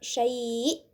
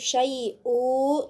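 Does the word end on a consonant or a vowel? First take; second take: consonant; vowel. First: The word stops on the glottal consonant. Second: The word ends with a short u vowel. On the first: The speaker calls it right. "tapi syai' sama ya" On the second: The speaker calls it wrong. "Ini bukan syai'u"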